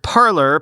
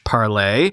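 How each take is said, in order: First: It is said like the English word parlor. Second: It is said with a French pronunciation. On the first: The speaker calls it wrong. "but is often pronounced as the English word parlor" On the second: The speaker calls it right. "The name was originally intended to be pronounced as in French"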